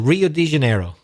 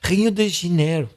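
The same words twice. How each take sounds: First: It is said with an English accent. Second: It is said with a Brazilian Portuguese accent. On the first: "We kind of just anglify them" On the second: "Let's see if I can impress you"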